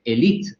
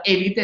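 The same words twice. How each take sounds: First: Élite said as e-li-TE, stressed on the last syllable; old French-style stress. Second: Élite said as É-li-te, stressed on the first syllable; esdrújula stress. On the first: Linguist recalling the old dictionary form, stressing élite on the final syllable. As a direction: put the weight on the end of élite, French style. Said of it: "el francés sabemos que es una lengua aguda". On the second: Linguist giving the academy's preferred form, stressing élite on the first syllable. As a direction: lean hard on the opening syllable of élite. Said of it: "la esdrújula".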